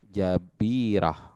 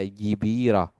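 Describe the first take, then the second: First: The first vowel is a. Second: The first vowel is i. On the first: The speaker calls it right. "jabirah itu fathah jimnya" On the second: The speaker calls it wrong. "atau dibaca jibirah"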